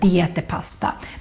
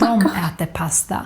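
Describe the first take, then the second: First: The first word is pronounced 'de'. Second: The first word is pronounced 'dom'. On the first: This is less common in speech. The speaker calls it wrong. "more than" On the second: This is how most speakers say it. The speaker calls it right. "most Swedes would say"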